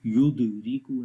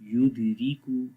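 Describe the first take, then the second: First: युदरीकू with an overdone bounce after the द; युदरीकू with a strong extra vowel after द; wrong qalqala demo. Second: युदरीकू with only a light bounce on the द; युदरीकू evenly, द released lightly; normal weak qalqala. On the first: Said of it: "ऐसे नहीं पढ़ेंगे". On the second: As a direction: keep the echo after द weak in युदरीकू. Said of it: "जो normal आवाज़ के साथ पढ़ा जाएगा". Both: Shown as a demonstration.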